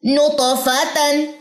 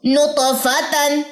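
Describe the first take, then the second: First: नुतफ़तन repeated very slowly, त bounced; slow Quranic recitation. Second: नुतफ़तन stretched very slowly, त bounced; slow Quranic recitation. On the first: Tutor repeats the word for learners, slow and careful. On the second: Tutor recites the word for learners, slow and careful. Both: Shown as a demonstration. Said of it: "अब इनके अंदर कलकला डालें".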